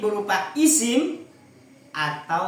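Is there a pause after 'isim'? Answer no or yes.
yes. There is a short pause after 'isim'. Only the verb must begin with 'an'. The speaker calls it right. "makanya bacanya harus dikasih koma"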